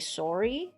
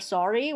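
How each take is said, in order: First: Sorry is said with a Canadian vowel. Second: Sorry is said with a non-Canadian vowel. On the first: "we say sorry" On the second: "instead of sorry"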